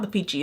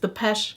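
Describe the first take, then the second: First: The middle vowel is long, like peach. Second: The middle vowel is short, like pesh. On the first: The speaker calls it wrong. "It's not the Peachy" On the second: The speaker calls it right. "it's Depeche Girl"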